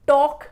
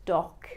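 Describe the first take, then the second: First: "टॉक" as toke, with oh; wrong TALK. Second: "टॉक" as tawk; low open aw in "टॉक"; correct TALK. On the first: Teacher rejecting the mistake, "टॉक" as toke. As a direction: round the vowel of "टॉक" to oh. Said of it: "टॉक नहीं". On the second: Teacher correcting learners, "टॉक" as tawk. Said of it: "तो सही pronunciation होगी". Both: Shown as a demonstration.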